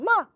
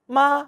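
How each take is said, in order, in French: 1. Le ton chute brusquement depuis le haut. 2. Le ton reste haut et plat.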